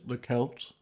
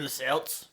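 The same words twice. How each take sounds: First: The word begins with a hard K sound. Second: The word begins with a soft S sound. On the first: This imitates the Greek-style pronunciation. "the ancient Greeks would have said" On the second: This is how people said it before the change. "we were all going about the place saying"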